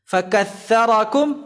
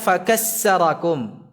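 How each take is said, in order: First: The middle consonant is a 'th' sound. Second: The middle consonant is an 's' sound. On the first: The speaker calls it right. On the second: The speaker calls it wrong.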